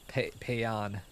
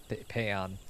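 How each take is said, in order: Both takes have the same delivery.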